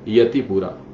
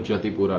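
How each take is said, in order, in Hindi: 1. नाम 'y' ध्वनि से शुरू होता है। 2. नाम 'j' ध्वनि से शुरू होता है। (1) "इसलिए उसको यतिपुरा" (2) "बंगाली में य का उच्चारण ज से ज जैसा करते"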